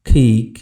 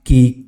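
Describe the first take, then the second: First: The first sound is an aspirated k. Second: The first sound is an unaspirated k. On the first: The speaker calls it right. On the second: The speaker calls it wrong.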